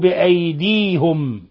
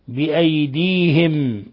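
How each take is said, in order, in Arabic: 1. يليها حركة 'u'. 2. يليها حركة 'i'. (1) "قرأها بأيديهم" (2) "بكسر الهاء"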